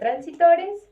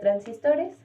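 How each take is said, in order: First: The middle syllable has no s sound. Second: The middle syllable has an s sound. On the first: The speaker calls it wrong. "yo decía transitores" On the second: The speaker calls it right. "y era transistores"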